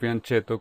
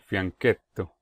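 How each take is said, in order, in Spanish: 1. Se pronuncia como una palabra española. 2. Se pronuncia como una palabra italiana. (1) "como si fuera una palabra en español" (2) "el término es italiano, y su pronunciación es algo como"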